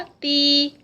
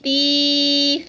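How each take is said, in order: First: The vowel is held for two counts. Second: The vowel is stretched out very long. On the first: The speaker calls it right. "टू counts का stretch" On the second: The speaker calls it wrong. "ज़्यादा लंबी हो जाती है, तो ये साउंड नहीं देनी"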